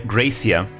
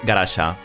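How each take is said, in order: First: The name is said with an English pronunciation. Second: The name is said with a Japanese pronunciation. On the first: "pronounce her name Gra Gracia in English" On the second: "I'll call her the, the Japanese way"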